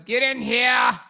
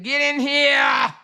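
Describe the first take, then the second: First: A lightly voiced campy fishy take on get in here. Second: Higher, slow, loud call of get in here; shouted quote. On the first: Shown as a demonstration. Redoing the fan's line in her own fishy voice. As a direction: toss it off with sassy feminine flair. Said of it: "In my fishy voice". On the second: Retold or imitated. Retelling a fan's message as a loud slow shout. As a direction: belt it like calling someone into the room. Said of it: "She said".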